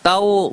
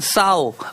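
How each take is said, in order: First: The word starts with a hard t sound. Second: The word starts with a soft th sound.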